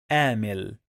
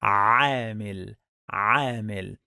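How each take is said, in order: First: عامل with a plain English A, like amil; عامل said without the throat sound; wrong English-style a. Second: عامل with a deep throat ayn at the start; عامل, squeeze the opening ayn from the throat; correct Arabic ayn. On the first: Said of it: "some people, they pronounce it like". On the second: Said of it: "The correct pronunciation is". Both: Shown as a demonstration.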